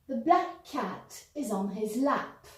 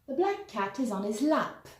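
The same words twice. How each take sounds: First: The sentence is said at a slower pace. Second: The sentence is said at a faster pace.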